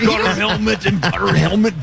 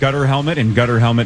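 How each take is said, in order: First: It is said in a put-on voice with a lisp. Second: It is said in a plain, normal voice.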